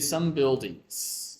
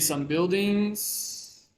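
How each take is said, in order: First: The pitch falls at the end. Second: The pitch rises at the end. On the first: The sentence is complete. The speaker calls it right. "The tone decreases" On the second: The sentence is not finished yet. The speaker calls it wrong. "seems like you haven't finished"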